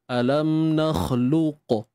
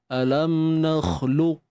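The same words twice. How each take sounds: First: The final q is released with an echoing bounce. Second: The final q is held without any echoing bounce. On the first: The speaker calls it wrong. "Contoh kalau ada qalqalah begini" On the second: The speaker calls it right. "kita baca bunyi yang sama, cuma buang qalqalah"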